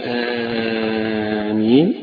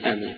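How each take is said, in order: First: The first vowel is drawn out long. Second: The first vowel is kept short. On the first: "مدا" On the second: "فيها القصر"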